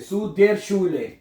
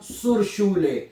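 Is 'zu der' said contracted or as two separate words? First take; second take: two words; contracted. First: Zu and der are said as separate words. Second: Zu and der merge into one syllable, zur. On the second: "इसका जो आर है उठा के हम सू के साथ जोड़ देंगे"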